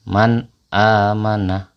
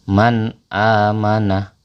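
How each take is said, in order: No difference in how they are said.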